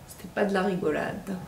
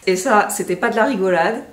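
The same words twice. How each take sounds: First: Soft muttered repeat; quiet echo. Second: Said in the usual way. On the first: Real, not acted. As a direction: echo it under your breath.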